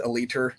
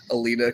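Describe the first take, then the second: First: Aliter, ending in "-ter" in place of "-ta"; imitating a friend's "Aliter" for Alita; Ray's pronunciation. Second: Said in the usual way. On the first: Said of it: "cracks me up when Ray". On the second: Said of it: "'cause he says Aliter".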